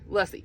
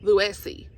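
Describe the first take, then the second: First: The name rhymes with fussy. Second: The name does not rhyme with fussy. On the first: The speaker calls it right. "she said fussy Lussy" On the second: The speaker calls it wrong. "I was saying Lucy"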